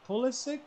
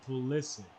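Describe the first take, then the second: First: Pulisic as the first option, left questioning; one pronunciation of Pulisic. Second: Pulisic as the alternative option; other pronunciation of Pulisic. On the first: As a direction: offer one way of saying Pulisic. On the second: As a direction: offer the other way of saying Pulisic. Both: Shown as a demonstration. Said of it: "I don't know".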